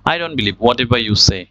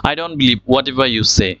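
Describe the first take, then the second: No difference in how they are said.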